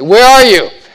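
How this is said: It is yelled harshly.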